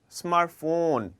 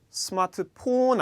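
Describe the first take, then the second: First: The ph is said as an F sound. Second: The ph is said as a P sound. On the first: The speaker calls it right. "F 발음으로 이루어져 있습니다" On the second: The speaker calls it wrong. "스마트폰 아니죠"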